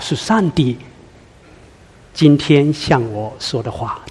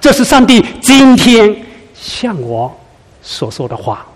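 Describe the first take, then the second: First: The word 上帝 carries the emphasis. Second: The word 今天 carries the emphasis. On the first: It is God who is speaking. "这是上帝，哦，" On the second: The message is for this very moment. "今天此时此刻"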